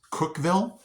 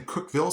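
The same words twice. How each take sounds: First: Said in the usual way. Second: "Cookville" with the ending reduced, as locals might say it; local pronunciation. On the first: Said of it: "is it not pronounced Cookville?". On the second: Shown as a demonstration. Asking viewers how locals say it, local pronunciation of "Cookville". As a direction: try the locals' way of saying "Cookville". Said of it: "Do you guys in Cookville say".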